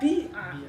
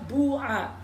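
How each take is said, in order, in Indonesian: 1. Vokal pertama jelas berbunyi i. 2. Vokal pertama jelas berbunyi u. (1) "domanya diganti dengan kasro kemudian ya-nya disukunkan dibaca bi'a" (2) "diganti dengan huruf wawu karena munasabah dengan doma"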